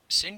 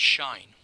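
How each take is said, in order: First: It is said as one syllable, 'sinch'. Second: It is said as one syllable, 'shine'. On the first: Some people use this pronunciation. "Some will call it sinh" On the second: This is the usual pronunciation. "normally pronounced shine"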